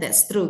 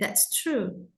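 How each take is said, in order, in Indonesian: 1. Vokal dalam true pendek. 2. Vokal dalam true panjang. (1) "Jangan hanya that's true gitu aja" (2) "tapi that's true"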